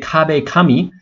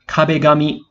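First: The second word starts with a 'k' sound. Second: The second word starts with a 'g' sound. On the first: The speaker calls it wrong. "we don't say kabe kami" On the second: The speaker calls it right. "The ka becomes ga"

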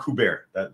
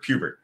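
First: The first syllable does not sound like Q. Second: The first syllable sounds like the letter Q. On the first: The speaker calls it wrong. "It's not Kubert, that's for sure" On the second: The speaker calls it right. "like the video game"

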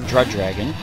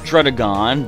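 First: The name is said as Drud Dragon. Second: The name is said as Drudagon. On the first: The speaker calls it wrong. "I'm going to pronounce it so strange" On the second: The speaker calls it right. "I know it's pronounced Drudagon"

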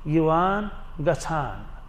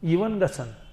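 First: The last word has an extra added sound. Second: The last word is said in the shorter form. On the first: This is how people from Pulwama say it. "Pulwama वाले कहेंगे" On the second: This is how the speaker's own community says it. "हम कहते हैं"

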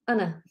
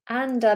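First: The word is reduced and the D is dropped. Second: The word is said in full with its D. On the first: "We drop the D" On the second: "And becomes anna"

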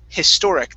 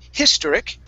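First: The middle syllable 'tor' is stressed. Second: The middle syllable 'tor' is not stressed. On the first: The speaker calls it right. "it's historic. The stress is on the O-R" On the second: The speaker calls it wrong. "Instead of historic"

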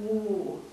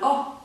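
First: The vowel is said long. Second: The vowel is said short. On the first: "das lange U spricht man U" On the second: "Das kurze U spricht man O"

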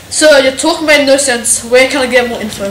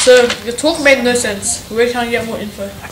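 First: It is said at a louder volume. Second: It is said at a quieter volume.

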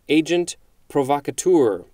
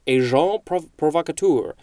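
First: The phrase is said with an American English pronunciation. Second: The phrase is said with an attempted French pronunciation. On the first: "I just said it the English-American way" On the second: "might be more accurately pronounced as"

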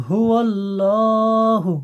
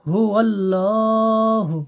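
The two takes are said the same way.

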